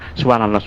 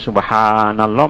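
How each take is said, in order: First: The long vowel is clipped short. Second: The long vowel is drawn out very long. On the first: "jangan subhanallah mana dia mat tak ada" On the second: "Jangan sampai subhanallah mat arik li sukun, itu kena berlagu"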